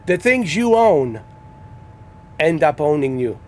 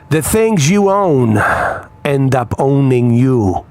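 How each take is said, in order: First: The sentence is said at a quieter volume. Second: The sentence is said at a louder volume.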